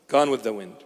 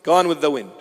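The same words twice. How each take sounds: First: Low, much softer repeat; soft fading echo. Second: Dramatic echo. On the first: Preacher echoing his own words, hushed and much softer. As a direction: let it fade like a sigh. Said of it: "echoed much softer". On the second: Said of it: "repeated, then echoed softer". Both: Acted.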